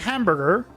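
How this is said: It is said in an American accent. Locals will not understand it. The speaker calls it wrong. "like an American"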